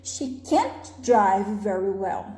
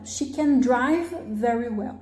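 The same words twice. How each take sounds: First: "can't" lifted and drawn out, rest lower; slow model sentence with weight on "can't"; stress on negation. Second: "drive" given the weight, "can" kept light; slow model sentence, lean on "drive"; stress on main verb. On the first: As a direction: lean on "can't", then let the rest drop. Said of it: "é sempre a parte que tem a negação". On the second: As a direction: affirmative stress falling on "drive". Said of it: "é sempre no verbo principal". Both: Shown as a demonstration.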